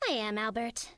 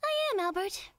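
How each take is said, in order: First: It is delivered small and restrained. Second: It is delivered biggest, with most energy.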